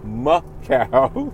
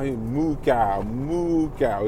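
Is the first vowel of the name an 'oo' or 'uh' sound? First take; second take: uh; oo. First: The first vowel is a short 'uh' sound. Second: The first vowel is a long 'oo' sound. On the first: The speaker calls it right. "It's Muh Cow. I finally found out the actual pronunciation" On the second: The speaker calls it wrong. "That's not Moo Cow"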